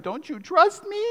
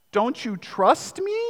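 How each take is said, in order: First: Higher, soft whiny pout; pouty plea. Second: Soft, slow pleading with a pout; puppy-dog plea. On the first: Husband pleading with his wife, pouty and whiny. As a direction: put on the pouty lip and plead. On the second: Husband pleading with his wife, pouty and soft. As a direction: beg sweetly like a sulking puppy. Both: Retold or imitated. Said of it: "big puppy dog eyes and the pouty lip".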